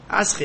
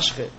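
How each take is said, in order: First: The word is said with an 's' sound. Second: The word is said with an 'sh' sound.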